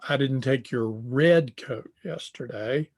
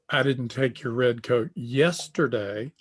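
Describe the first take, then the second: First: The stress falls on the word red. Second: The stress falls on the word yesterday. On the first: The coat taken was another color. "The one I took was blue" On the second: The coat was taken on another day. "I took your red coat, but it was last week"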